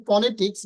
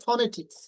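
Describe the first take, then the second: First: "ফনেটিক্স" with a plain p, like "ponetiks"; no puff of air opening "ফনেটিক্স"; common mispronunciation. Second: "ফনেটিক্স" with an aspirated ph, like "phonetiks"; correct pronunciation. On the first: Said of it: "আমরা অনেকে বলি". ("ফনেটিক্স" প দিয়ে, পনেটিক্স-এর মতো) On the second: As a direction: puff of air opening "ফনেটিক্স". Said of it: "এটা উচ্চারণ হবে ফনেটিক্স". ("ফনেটিক্স" ফ দিয়ে উচ্চারণ) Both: Shown as a demonstration.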